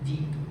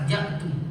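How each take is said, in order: First: The first vowel is an i sound. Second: The first vowel is an a sound. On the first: The speaker calls it right. "baris bawah ... yang betulnya ji'tu" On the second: The speaker calls it wrong. "baris atas"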